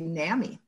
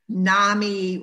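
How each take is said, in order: First: The first vowel differs from the vowel in 'mommy'. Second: The first vowel matches the vowel in 'mommy'. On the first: This is how people on the East Coast say it. "people on the East Coast say NAMI" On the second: This is how people in Minnesota say it. "we in Minnesota say NAMI rhymes with mommy"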